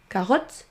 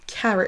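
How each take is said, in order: First: Carotte with a full French o; French-style carotte; wrong French vowels. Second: Carrot with a reduced schwa in the second syllable; English carrot. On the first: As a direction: learner mistake carotte. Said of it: "On ne dit pas carotte". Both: Shown as a demonstration.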